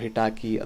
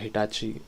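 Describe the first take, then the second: First: The middle consonant is a hard k sound. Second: The middle consonant is a ch sound. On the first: "ಹೇಗೆ pronounce ಮಾಡ್ತಾರೋ" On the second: "ಹಿಟಾಚಿ ಅಂತ ಕರಿತೀನಿ ನಾನು"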